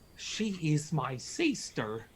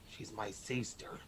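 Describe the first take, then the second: First: The line is delivered in an eager, excited way. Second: The line is delivered in a casual, offhand way. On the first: The speaker calls it wrong. "You seemed very excited to say that. you seem a bit too into it" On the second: The speaker calls it right. "I liked that one. That was believable"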